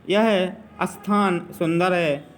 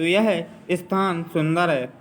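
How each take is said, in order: First: A short vowel is added before the sth sound. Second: The sth sound starts directly without any vowel. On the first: The speaker calls it wrong. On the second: The speaker calls it right.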